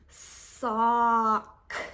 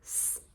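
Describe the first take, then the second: First: The sounds are blended and drawn out smoothly. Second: Each sound is said separately with breaks. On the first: The word can be heard as a whole. The speaker calls it right. "kind of like drawing out those, um, those sounds" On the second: The word cannot be heard as a whole. The speaker calls it wrong. "he says each of the sounds in a choppy way like that"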